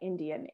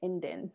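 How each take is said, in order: First: The word is said in full, with three syllables. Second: The word is reduced to two syllables. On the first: This is how people outside the reservation say it. "not Indian" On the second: This is how people on the reservation say it. "everyone said Indian"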